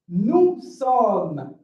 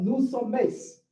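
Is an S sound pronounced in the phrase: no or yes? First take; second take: no; yes. First: The S is silent and not pronounced. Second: An S sound is pronounced in it. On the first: The speaker calls it right. "We don't read the S" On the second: The speaker calls it wrong.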